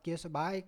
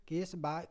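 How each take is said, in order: No difference in how they are said.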